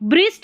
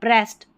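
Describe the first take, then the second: First: The vowel is an ee-like sound. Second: The vowel is a short eh sound. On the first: The speaker calls it wrong. "ब्रिस्ट नहीं" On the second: The speaker calls it right. "नहीं ब्रेस्ट"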